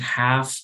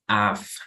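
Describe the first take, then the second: First: The word starts with a clear h sound. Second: The word starts without any h sound. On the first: "instead of saying have" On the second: "eliminate the H from the pronunciation"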